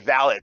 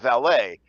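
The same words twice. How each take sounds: First: It is said the British way. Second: It is said the American, French-like way. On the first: The speaker calls it wrong. "the British will say valet" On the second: The speaker calls it right. "instead of valet"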